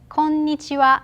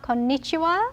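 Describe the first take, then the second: First: The pitch stays level across the word. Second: The pitch rises and falls across the word. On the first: The speaker calls it right. "Japanese has more flat, no intonation" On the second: The speaker calls it wrong. "It's not konnichiwa"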